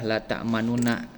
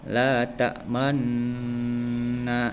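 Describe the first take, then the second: First: Two separate n syllables are said in full. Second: A merged double n with briefly rounded lips. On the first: This is the original underlying form. "asalnya itu adalah la ta'manuna" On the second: This is the actual recited form. "mencampurkan domah pada sukun dengan cara memoncongkan bibir"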